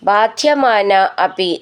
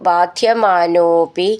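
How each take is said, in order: First: The two words are said separately. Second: The two words are merged into one.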